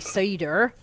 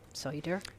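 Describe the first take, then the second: First: It is said in a West Country English accent. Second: It is said in a Tasmanian accent.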